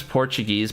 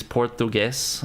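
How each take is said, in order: First: Said in the usual way. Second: Slow "Portuguese" with a "th" in the middle; altered pronunciation. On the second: Shown as a demonstration. Correcting the language's name, "Portuguese" with slow "th" and "ess". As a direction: say "Portuguese" slowly, lisped middle and "ess" ending.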